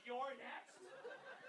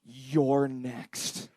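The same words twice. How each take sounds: First: Barely audible, whispery menace; creepy threat. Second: Low, soft, deadpan menace; ominous caption reading. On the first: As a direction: breathe it out like a horror-film threat. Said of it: "Do you know how fucked up that is". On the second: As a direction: read it like a quiet threat. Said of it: "it just read". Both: Acted.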